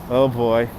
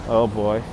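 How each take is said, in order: Both takes have the same delivery.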